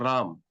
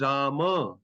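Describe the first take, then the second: First: The name ends on a hard consonant. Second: The name ends with a final vowel. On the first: This is the Hindi form. The speaker calls it wrong. "not Ram" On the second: This is the Sanskrit form. The speaker calls it right. "in Sanskrit it is Rama"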